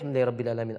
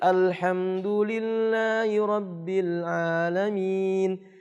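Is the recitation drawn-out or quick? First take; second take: quick; drawn-out. First: It is recited quickly, without drawn-out sounds. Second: It is recited slowly, with drawn-out melodic sounds. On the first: This is the style for a prayer recited silently. "Beda ketika sirriyah. Nggak mungkin dia baca seperti itu" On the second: This is the style for a prayer recited aloud. "bacaan mujawwad namanya"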